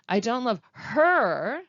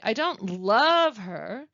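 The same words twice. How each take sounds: First: The word her carries the stress. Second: The word love carries the stress. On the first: The speaker loves someone else. "we might think I love someone else" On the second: The speaker likes her but does not love her. "we probably think that I like her, but I don't love her"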